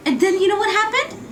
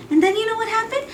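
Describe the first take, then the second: No difference in how they are said.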